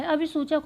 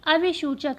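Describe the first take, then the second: First: अभिसूचक said with a clear "s" sound, as abhisuchak; corrected pronunciation. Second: अभिसूचक said with a "sh" sound, as abhishuchak; mispronounced word. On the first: Teacher correcting her own misreading for students. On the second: Teacher misreading a quiz word before correcting herself. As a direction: misread अभिसूचक with "shu" in place of "su". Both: Shown as a demonstration. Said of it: "ये अभिसूचक नहीं".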